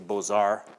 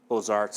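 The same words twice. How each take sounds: First: It is said with a French pronunciation. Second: It is said with an English pronunciation. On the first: "properly, you might say" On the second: "the anglicized way of saying it"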